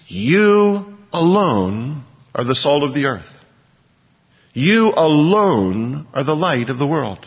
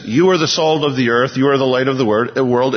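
First: "you alone" drawn out and leaned on; slow, weighty stress on "you alone". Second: Said in the usual way. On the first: Shown as a demonstration. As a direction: make "you alone" the point, slowly. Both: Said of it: "it's emphatic".

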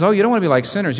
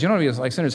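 First: Higher, louder, mock-sweet warning; hammed-up playful mimicry of Jesus. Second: Said in the usual way. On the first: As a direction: tease the crowd like a sing-song scold. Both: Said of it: "And he says".

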